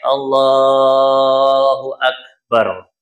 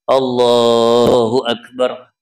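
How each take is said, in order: First: The phrase is stretched out with long vowels. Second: The phrase is said quickly with short vowels. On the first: The words fill the whole movement. The speaker calls it right. "dipanjangin takbir sampai ukuran tadi itu" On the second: The movement is left partly without any words. The speaker calls it wrong. "Kalau dua harokat nanti ada gerakan yang kosong"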